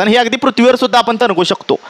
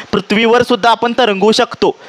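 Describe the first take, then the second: First: A plain first statement before the repeat. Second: Slower, with a long, leaned-on सुद्धा; teacher repeating the point for the class, slow and emphatic. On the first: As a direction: stress falls on सुद्धा, said at a normal teaching pace. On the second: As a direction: repeat it slowly, stretching सुद्धा so it sinks in. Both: Shown as a demonstration.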